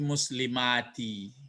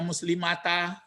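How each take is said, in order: First: The word ends with an 'i' vowel. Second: The word ends with an 'a' vowel. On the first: The speaker calls it right. "tapi muslimati" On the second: The speaker calls it wrong. "jangan dibaca muslimata"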